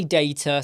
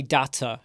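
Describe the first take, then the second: First: "data" with the first a as in day, DAY-ta; British data. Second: "data" with a broad ah, DAH-ta; other data. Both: Shown as a demonstration. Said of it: "I say data, some people say data".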